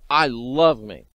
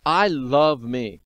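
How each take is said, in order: First: Said in the usual way. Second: Slowly savoured; a slow, drawn-out declaration. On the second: Shown as a demonstration. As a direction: stretch each word out, relishing it.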